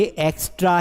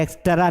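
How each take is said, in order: First: एक्स्ट्रा with a tight "stra" cluster; correct extra. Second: एक्स्ट्रा as "eks-ta-raa", with an added vowel; wrong extra. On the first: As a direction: say एक्स्ट्रा as "eks-traa", no vowel inside. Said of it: "ये एक्स्ट्रा है". (एक्स्ट्रा में "स्ट्र" जुड़ा हुआ) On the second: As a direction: split the "tr" in एक्स्ट्रा. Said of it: "ये एक्स्ट्रा नहीं है". (एक्स्ट्रा को गलत "एक्सटरा" बोलना) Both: Shown as a demonstration.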